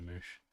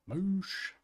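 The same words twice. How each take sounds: First: Said in the usual way. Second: MOOSH high and rising; playful echo. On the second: Pretend. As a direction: sing out MOOSH in a silly high voice.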